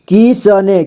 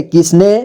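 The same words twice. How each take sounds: First: किसने as कि-स-ने; syllable by syllable. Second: Said in the usual way. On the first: Shown as a demonstration. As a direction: sound out किसने with "sa" on its own. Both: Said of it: "एक ही बार में पढ़ेंगे".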